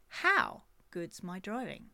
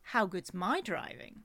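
First: The stress falls on the word how. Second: The stress falls on the word my.

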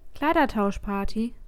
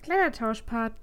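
First: The word is clearly and carefully articulated. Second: The word is mumbled and unclearly articulated. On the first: The speaker calls it right. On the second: The speaker calls it wrong.

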